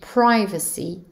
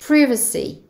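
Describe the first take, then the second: First: It is said in an American accent. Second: It is said in a British accent. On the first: "pour les États-Unis" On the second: "Au Royaume-Uni"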